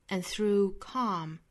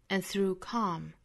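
The two takes are said the same way.

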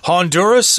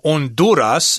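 First: It is said with an English pronunciation. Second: It is said with a Spanish pronunciation.

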